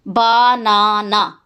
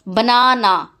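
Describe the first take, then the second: First: बनाना drawn out as ba, naa, naa; syllable by syllable. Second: Said in the usual way. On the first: Shown as a demonstration. Teacher showing vowels in each syllable, बनाना said piece by piece. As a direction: split बनाना into three slow syllables. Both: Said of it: "Every syllable has at least one vowel".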